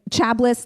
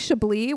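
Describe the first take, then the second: First: It is said as a literal spelling reading. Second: It is said with the standard French pronunciation. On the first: This is how it was misread from the page. The speaker calls it wrong. "Chabless the whole time" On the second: This is how the name is actually pronounced. The speaker calls it right. "And actually Chablis was one"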